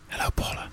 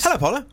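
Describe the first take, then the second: First: It is said in a put-on sexy voice. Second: It is said in a plain normal voice.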